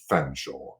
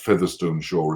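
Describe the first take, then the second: First: The name is shortened to two syllables. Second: The name is said in full as spelled. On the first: This is how the name is actually spoken. "is pronounced Fanshawe" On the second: This is how the name is written.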